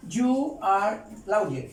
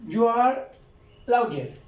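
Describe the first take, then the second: First: You are lawyer drawn out slowly; teacher slowing down You are lawyer; slow model. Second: Emphatic model. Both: Shown as a demonstration. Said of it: "Ahí estoy diciendo".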